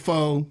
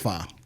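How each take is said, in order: First: The vowel is a long 'oh' sound. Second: The vowel is a short 'uh' sound. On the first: The speaker calls it wrong. "I'm gonna hit you with the foe" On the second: The speaker calls it right. "and not the fa"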